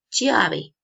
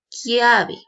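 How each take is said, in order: First: It begins with the Spanish ch sound. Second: It begins with the Italian ch sound. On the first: The speaker calls it wrong. "En español yo leería chiave" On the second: The speaker calls it right. "pero se pronuncia, se pronuncia, se pronuncia chiave"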